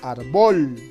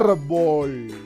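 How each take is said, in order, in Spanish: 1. El acento está en la segunda sílaba. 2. El acento está en la primera sílaba. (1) "la mayor fuerza estuviera sobre bol" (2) "la mayor fuerza de voz está en la sílaba ar"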